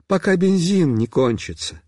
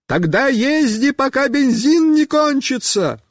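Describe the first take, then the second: First: Said in the usual way. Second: High-pitched shouted advice; high calling voice; calling back. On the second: A narrator's reading. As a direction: holler it to a rider going past. Friend shouts back to rider.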